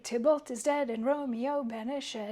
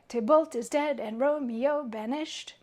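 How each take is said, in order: First: The line ends on an extra, stressed syllable. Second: The line ends on an unstressed syllable. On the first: "ends on that that one weird half of a foot" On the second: "a nice, happy, feminine, or um, like even line"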